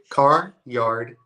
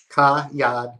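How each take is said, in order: First: The R sounds are clearly pronounced. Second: The R sounds are dropped. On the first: "See, I can do both" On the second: "say it the wrong way"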